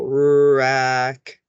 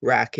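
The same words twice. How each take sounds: First: "rack" stretched out, with a long held r; sounds before blending. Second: Said in the usual way. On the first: Shown as a demonstration. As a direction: draw out each sound in "rack". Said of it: "we wanna say the sounds first". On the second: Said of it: "and then we'll blend it".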